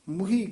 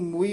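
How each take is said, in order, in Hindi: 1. इसे h ध्वनि के साथ तेज़ी से बोला जाता है। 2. इसे h ध्वनि के बिना बोला जाता है। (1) "ਹਾਹੇ ਨਾਲ ਉਚਾਰਨ ਕਰਨਾ, ਛੇਤੀ ਬੋਲਣਾ" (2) "ਇਸ ਨੂੰ ਮੂਈ ਨਹੀਂ ਕਹਿਣਾ"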